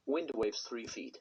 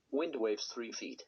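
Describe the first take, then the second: No difference in how they are said.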